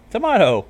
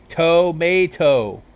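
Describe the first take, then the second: First: "Tomato" as tuh-MAH-toe, posh Canterlot accent; prim Canterlot tuh-MAH-toe. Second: "Tomato" said very slowly, tuh-MAY-toe, loud and high; slow demo tomato. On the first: Narrator says "Tomato" as tuh-MAH-toe in Canterlot accent. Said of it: "make your voice all posh". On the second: Vinyl demonstrates "Tomato" slowly and loudly as tuh-MAY-toe. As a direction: stretch out "Tomato" with a broad MAY. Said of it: "No, you're saying it". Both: Shown as a demonstration.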